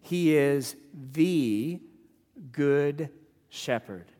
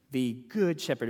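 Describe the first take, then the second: First: "He is the good shepherd" said very slowly, with a pause before "good" and another before "shepherd"; drawn-out emphasis. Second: Said in the usual way. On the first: Shown as a demonstration. Preacher stressing the key phrase to his congregation, slowly. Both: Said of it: "it's the fact that he's the good shepherd".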